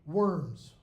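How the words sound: The word has an American English pronunciation. "use American pronunciation in English"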